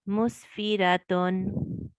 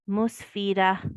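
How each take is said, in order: First: The word ends with a full 'atun' sound. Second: The word ends with a soft 'ah' sound. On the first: The reader continues without stopping. "If you were not going to pause and you were just going to read through" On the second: The reader stops after this word. "if you're going to pause after this word ... you will recite like this"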